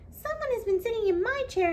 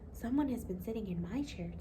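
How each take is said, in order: First: It is said in a high, squeaky little voice. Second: It is said in a quiet, gentle voice. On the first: "cried with a squeaky little voice" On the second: "in a quiet, gentle voice"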